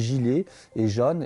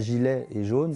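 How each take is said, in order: First: The vowels follow the southern regional pronunciation. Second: The vowels follow the standard central French pronunciation. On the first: This is how people in these regions say it. The speaker calls it right. "on dit" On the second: This is how people in these regions do not say it. The speaker calls it wrong. "on ne dit pas"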